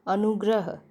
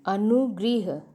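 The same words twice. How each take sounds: First: अनुग्रह said with "rə" as ənuɡrəɦ; correct pronunciation. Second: अनुगृह said with "ri" as ənuɡriɦ; wrong pronunciation. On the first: Teacher demonstrates the correct pronunciation to class. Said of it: "सही है". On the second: Teacher demonstrates the wrong pronunciation to class. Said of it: "अनुगृह अशुद्ध है". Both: Shown as a demonstration.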